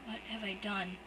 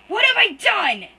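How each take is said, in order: First: Soft, stunned; hollow, to himself; quiet. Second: High, loud, slow anguished scream. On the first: Shocked brother to himself after the attack, quiet and stunned. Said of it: "he says quietly". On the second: Guilty brother screams to no one, loud, high, slow. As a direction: scream it to the empty room. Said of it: "he screams to no one". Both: Acted.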